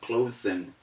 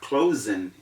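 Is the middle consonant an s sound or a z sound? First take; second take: s sound; z sound. First: The middle consonant is an s sound. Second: The middle consonant is a z sound. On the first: The speaker calls it wrong. "instead of closing" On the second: The speaker calls it right. "We have closing"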